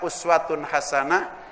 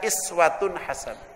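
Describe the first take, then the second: First: The first word begins with a u vowel. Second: The first word begins with an i vowel. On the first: "bisa dibaca uswatun hasanah" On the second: "Kalau iswatun hasanah itu pakai kasroh"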